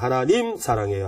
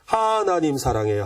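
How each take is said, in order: First: The stress is on the third syllable. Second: The stress is on the first syllable.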